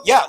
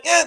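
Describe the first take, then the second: First: Imitating an obvious, assured yes; matter-of-fact yeah. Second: Imitating a noncommittal reply; a lukewarm shrug of a sound; half-hearted eh. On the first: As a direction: say it like it's common sense. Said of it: "like, it's common sense". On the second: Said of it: "they don't go like".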